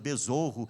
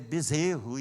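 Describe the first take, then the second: First: The stressed vowel sounds like 'o'. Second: The stressed vowel sounds like 'e'. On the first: The speaker calls it wrong. "ele ficou o tempo todo falando besorro" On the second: The speaker calls it right. "não é besouro, é, é bezerro"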